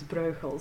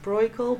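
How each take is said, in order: First: The name is said with a Dutch pronunciation. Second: The name is said with an English pronunciation. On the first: This is how the speaker habitually says it. "how I'm used to pronouncing it" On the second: This is how people locally say it. "in this country it's sometimes pronounced Breugel"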